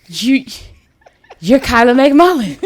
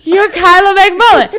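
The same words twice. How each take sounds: First: Halting, stunned recognition with long pauses; starstruck disbelief. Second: Loud, high-pitched fangirl exclamation; starstruck outburst. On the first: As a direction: imitate being too starstruck to get it out. First starstruck take of retold meeting. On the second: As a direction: re-enact blurting it out in overwhelmed excitement. Louder repeat of starstruck recognition. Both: Retold or imitated.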